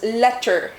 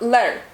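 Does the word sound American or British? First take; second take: American; British. First: It is said in an American-style accent. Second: It is said in a British-style accent. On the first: "it's not pronounced as letter in British" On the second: "It's like letter"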